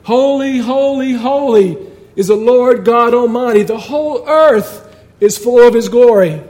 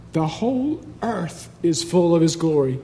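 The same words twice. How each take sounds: First: Raised, ringing call to each other; shouting. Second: Soft, measured reading of scripture; softened, reverent quote; hushed awe. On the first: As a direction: cry it out high and loud, like an antiphonal shout. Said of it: "They were shouting to each other". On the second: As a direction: say it quietly, with a lift on EARTH. Quiet re-reading of shouted verse. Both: Acted.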